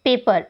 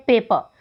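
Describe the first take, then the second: First: Said in the usual way. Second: पेपर with the final र dropped; silent final r. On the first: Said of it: "इसकी transcription कैसे होती है". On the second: Shown as a demonstration. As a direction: say पेपर as "pay-puh", ending on a schwa. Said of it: "जो र sound है last में, उसको ignore". (पेपर, आख़िरी र को छोड़कर)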